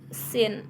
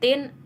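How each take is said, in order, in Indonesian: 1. Kata ini diawali dengan bunyi s yang mendesis. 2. Kata ini diawali dengan bunyi t yang keras. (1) "orang Jepang biasa mengucapkan dengan kata sin" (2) "Indonesia mengucapkan dengan tin"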